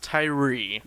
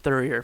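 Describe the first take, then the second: First: The name starts with a plain t sound. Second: The name starts with a th sound. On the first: This is how the family says the name. The speaker calls it right. "So it's pronounced Tyree" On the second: This is how others read the spelling. The speaker calls it wrong. "it's always been Thurier from everyone"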